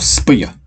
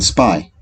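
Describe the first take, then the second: First: The y is sounded like the y in yes. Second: The y is sounded as a long i. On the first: The speaker calls it wrong. "We do not say" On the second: The speaker calls it right. "We say ... the sound of these is long I"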